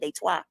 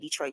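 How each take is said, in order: First: The name is said with a French pronunciation. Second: The name is said with an English pronunciation. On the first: The speaker calls it right. "That's how you say it in French" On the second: The speaker calls it wrong. "You don't say Detroit"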